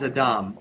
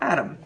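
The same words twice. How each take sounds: First: The name is pronounced the Hebrew way. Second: The name is pronounced the English way.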